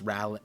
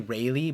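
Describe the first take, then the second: First: The first syllable sounds like 'ral'. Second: The first syllable sounds like 'ray'. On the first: The speaker calls it right. "so it's Rally" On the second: The speaker calls it wrong. "I was gonna say Rayleigh, but obviously it's not the same Rayleigh"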